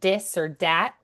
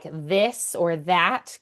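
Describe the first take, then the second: First: The words begin with a D sound. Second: The words begin with a TH sound.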